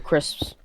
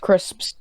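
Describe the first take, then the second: First: The P sound is left out. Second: The P sound is clearly pronounced. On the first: The speaker calls it wrong. "some people go crisps" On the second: The speaker calls it right. "You just gotta always remember to pronounce the P"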